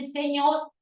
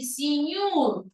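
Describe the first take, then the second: First: The vowels e and o sound standard. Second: The vowels sound like i and u. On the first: "en vez de decir señor" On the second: "va a decir señor"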